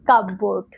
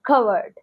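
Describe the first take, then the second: First: Both parts, cup and board, are fully sounded. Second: The p is dropped and the second part is reduced. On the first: The speaker calls it wrong. "মিসপ্রোনাউন্স" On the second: The speaker calls it right. "Correct pronounce"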